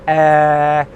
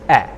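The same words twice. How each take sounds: First: The vowel sound is held long. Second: The vowel sound is kept short. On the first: The speaker calls it wrong. "So it's not eh" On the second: The speaker calls it right. "the vowel sounds that make the diphthongs are short English vowel sounds"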